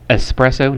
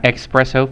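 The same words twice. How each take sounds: First: The word begins with an 'es' sound. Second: The word begins with an 'ex' sound. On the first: The speaker calls it right. "it's a it's espresso" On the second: The speaker calls it wrong. "not espresso"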